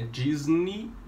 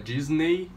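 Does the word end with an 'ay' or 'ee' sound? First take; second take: ee; ay. First: The word ends with an 'ee' sound. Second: The word ends with an 'ay' sound. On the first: The speaker calls it right. "tem o som de I no final" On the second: The speaker calls it wrong. "não é Disney"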